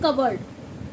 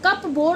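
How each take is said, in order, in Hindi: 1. p silent है। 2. p बोला जाता है। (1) "इसमें पी साइलेंट है" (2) "कप बोर्ड नहीं बोला जाता"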